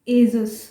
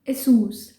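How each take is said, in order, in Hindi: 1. दूसरा अक्षर 'zus' जैसा सुनाई देता है। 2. दूसरा अक्षर 'soos' जैसा सुनाई देता है। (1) "इसको हम गलत कैसे बोलते हैं?" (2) "पहला ब्रांड लिस्ट में है एसूस। यस"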